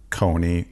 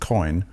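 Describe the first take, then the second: First: The name is said the American way. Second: The name is said the guest's way. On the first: "we here in America pronounce that Coney" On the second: "as you pronounce it"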